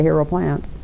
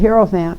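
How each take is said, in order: First: It is said as hero plant, with three syllables. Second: It is said as hi-er-o-phant, with four syllables. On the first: The speaker calls it wrong. "I didn't say Hero Plant" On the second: The speaker calls it right. "I said Hierophant"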